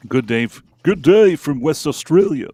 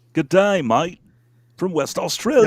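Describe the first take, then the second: First: Mock Aussie greeting, louder on West Australia; a jokey Australian accent read of a fan's hello. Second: Higher, louder Aussie voice on good day mate; broad put-on Australian accent. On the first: Reading a listener's greeting in an Australian accent. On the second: Redoing the fan's greeting in a stronger Australian accent. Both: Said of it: "when I try to do a, a Australian accent".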